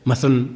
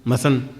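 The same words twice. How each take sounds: First: The word is said fast with syllables dropped. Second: The same.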